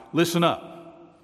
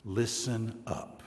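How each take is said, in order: First: "Listen up" higher, louder, slowed; "Listen up" as a slow loud command; emphatic listen up. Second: Said in the usual way. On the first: Shown as a demonstration. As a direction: stress "listen", slow and strong. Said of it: "there's an exclamation point". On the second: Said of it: "the word that gets the emphasis".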